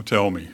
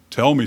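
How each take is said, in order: First: Low, unwilling reply; reluctant. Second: Said in the usual way. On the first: Acted. Saul knowing Samuel's news won't be good, reluctant. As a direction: say it as if dreading the answer. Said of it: "can't imagine Saul was too eager to hear it". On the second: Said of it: "can't imagine Saul was too eager".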